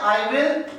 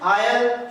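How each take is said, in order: First: Two full words are said separately. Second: The words merge into one short syllable. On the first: "आई और विल" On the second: "इसका उच्चारण करते हैं आयल"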